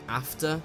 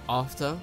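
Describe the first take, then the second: First: It is said with a northern English vowel. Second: It is said with a posh southern English vowel. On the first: The speaker calls it wrong. "don't sound like you're coming from the north of England" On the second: The speaker calls it right. "a very posh English accent"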